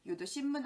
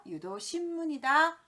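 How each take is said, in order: First: 유도 신문 said as 유도 심문, m closing 신; wrong form. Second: 유도 신문이다 higher and louder, with n closing 신; correct form. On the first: Teacher drilling the mistake to avoid, m sound. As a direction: merge 신 into 심 before 문. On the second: Teacher drilling the right term, emphatic n. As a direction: punch a clear 신 in 유도 신문이다. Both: Shown as a demonstration. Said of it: "아니다, 유도 신문이다".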